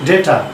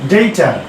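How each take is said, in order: First: ডেটা with a short E, "de-ta"; mistaken data pronunciation. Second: ডেটা as "DEI-ta", with a glide; correct data pronunciation. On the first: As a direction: say ডেটা without the glide. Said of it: "ভুল উচ্চারণ করি". (ডেটা, ছোট "এ" দিয়ে) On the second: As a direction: open ডেটা with an EI vowel. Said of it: "বলতে পারি". (ডেটা, "ডেইটা"র মতো) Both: Shown as a demonstration.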